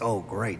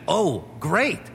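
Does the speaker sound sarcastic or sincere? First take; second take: sarcastic; sincere. First: It sounds sarcastic and unimpressed. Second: It sounds sincere and genuinely pleased. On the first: The speaker seems not pleased at all. "always sounds sarcastic, like that famous dead actress who was always like" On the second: The speaker is truly pleased. "But really, she meant"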